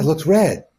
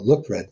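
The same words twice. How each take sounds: First: The tone agrees with surprise at what was said. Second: The tone disagrees with what was said. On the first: The speaker agrees with what was said. "a kind of surprised agreement" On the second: The speaker disagrees with what was said. "Same disagreement"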